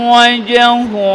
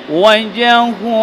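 Both takes have the same delivery.

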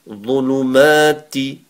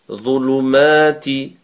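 The two takes are said the same way.

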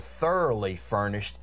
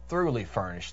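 First: The first word sounds like 'thor-ough-ly'. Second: The first word sounds like 'through-ly'. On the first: The speaker calls it wrong. "It's not that you are thoroughly furnished" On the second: The speaker calls it right. "It's thoroughly furnished"

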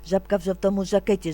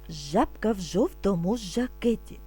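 First: It is spoken very quickly. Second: It is spoken at a moderately faster pace. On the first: "А тепер дуже швидко" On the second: "А тепер трошки швидше"

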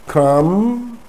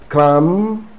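No difference in how they are said.

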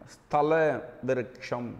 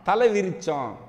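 First: The first word starts with an s sound. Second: The first word starts without an s sound. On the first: The speaker calls it right. "ஸ்தல விருட்சம் அப்படியும் சொல்லலாம்" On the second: The speaker calls it wrong. "அவர் என்ன சொன்னார்னா தலை விரிச்சம் அப்படின்னாரு"

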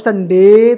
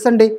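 First: The stress is on the second syllable. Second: The stress is on the first syllable. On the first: The speaker calls it wrong. "Sunday तो नहीं बोलेंगे" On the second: The speaker calls it right. "डे जो हो गया unstressed"

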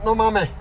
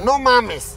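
First: The final s is weakened or dropped. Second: The final s is pronounced clearly. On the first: The speaker calls it wrong. "si lo pronuncias como sudamericano" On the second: The speaker calls it right. "Primero tienes que pronunciar la S"

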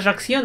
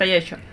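First: The name is pronounced with zh and ks sounds. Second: The name is pronounced with y and ch sounds. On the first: This is how the name is actually read. "На самом деле они читаются Ажаксио" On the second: This is how the name is said in Russia. "но в России говорят Аячо"

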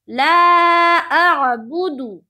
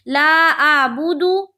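First: The 'a' is pressed from the throat, voice lowered. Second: The 'a' is a plain vowel without throat sound. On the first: The speaker calls it right. "हमजा को आयन से मिलाना है और आवाज को नीचे की तरफ लेके जाना है और हलक से आयन निकालना है" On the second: The speaker calls it wrong. "इस तरह पढ़ते"

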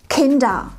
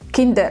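First: The final R is vocalized, not a consonant. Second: The final R is pronounced as a consonant. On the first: The speaker calls it right. "Richtig ist es Kinder" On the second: The speaker calls it wrong. "Und nicht Kinder. Nein"

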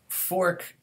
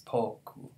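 First: The word is one syllable starting with f. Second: The word is two syllables starting with p. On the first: "It's one syllable in English" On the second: "it ends up becoming pronounced as poku"

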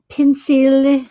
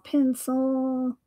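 First: The word is said in a foreign accent. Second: The word is said in a plain accent.

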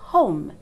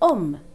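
First: The starting h sound is pronounced. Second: The starting h sound is dropped. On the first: This is how the word is normally said. "instead of home" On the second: This is how a French speaker says it. "French speakers say home"

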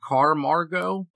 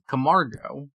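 First: The first syllable has an added r sound. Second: The first syllable has no r sound. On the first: The speaker calls it wrong. "I always want to say Carmargo" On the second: The speaker calls it right. "but Camargo"

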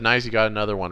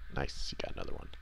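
First: It is said at a louder volume. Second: It is said very quietly.

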